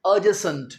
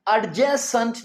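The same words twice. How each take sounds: First: Adjacent with a silent d, a-jacent; correct pronunciation. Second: Adjacent said with the d sounded, ad-jacent; wrong pronunciation. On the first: Teacher to students giving the right way, silent d. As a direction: drop the d in adjacent, a-jay-sent. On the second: Teacher to students showing the wrong way, d sounded. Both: Shown as a demonstration. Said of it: "डी को pronounce नहीं करते".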